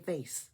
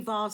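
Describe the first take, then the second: First: It is said in an American accent. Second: It is said in the speaker's own accent.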